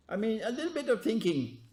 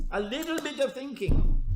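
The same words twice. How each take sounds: First: Said in the usual way. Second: Thinking repeated louder and higher; emphatic repeat. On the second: Shown as a demonstration. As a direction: push the repeat of a little bit of thinking.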